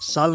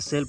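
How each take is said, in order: First: The vowel is a long open 'aa' sound. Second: The vowel is a mid front 'e' sound. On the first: The speaker calls it wrong. "साल नहीं पढ़ेंगे" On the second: The speaker calls it right. "सेल पढ़ेंगे"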